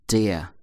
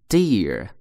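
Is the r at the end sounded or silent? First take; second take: silent; sounded. First: The final r is silent, without curling. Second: The final r is sounded with a curled tongue. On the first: "英国人读的时候不卷舌头" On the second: "美国人有R 卷舌头"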